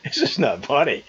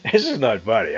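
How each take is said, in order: First: Trying not to laugh; laughing through the words. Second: Said in the usual way. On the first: Real, not acted. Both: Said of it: "I shouldn't be laughing".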